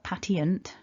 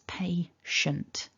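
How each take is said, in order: First: The ending is said like 'tee-unt'. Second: The ending is said like 'shunt'. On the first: The speaker calls it wrong. "it's not patient" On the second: The speaker calls it right. "it's patient"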